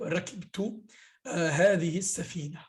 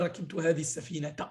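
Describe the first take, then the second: First: The last word ends without a t sound. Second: The last word ends with a t sound. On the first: The speaker calls it right. "Tu dis par exemple" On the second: The speaker calls it wrong. "Tu dis pas"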